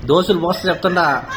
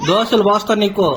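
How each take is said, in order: First: Threat said through a laugh; half-joking, chuckling warning. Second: Slow, deliberate mock threat; slow stern warning. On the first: Parent teasing the child with a joke threat, laughing. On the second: Parent warning the child slowly, stern mock threat. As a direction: lean on దోశలు, slow and firm. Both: Real, not acted.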